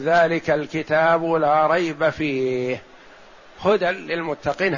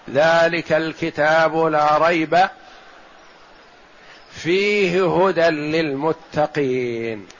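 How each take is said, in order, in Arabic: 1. وقف واحد يكون بعد «فيه» فقط. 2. وقف واحد يكون بعد «لا ريب» فقط. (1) "هذه أولى" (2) "وقف آخر"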